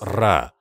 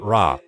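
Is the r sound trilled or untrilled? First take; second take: trilled; untrilled. First: The r is trilled with a vibrating tongue. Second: The r is an untrilled, English-like sound. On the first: The speaker calls it right. "скажите «ра»" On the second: The speaker calls it wrong. "Не говорите «ра»"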